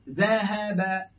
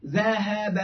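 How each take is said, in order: First: ذهب stretched very slowly, each letter held; drawn-out ذهب. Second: Said in the usual way. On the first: Shown as a demonstration. Teacher slowly models ذهب for students, drawn out. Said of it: "بكسر العين". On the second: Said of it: "مثلًا، مثلًا".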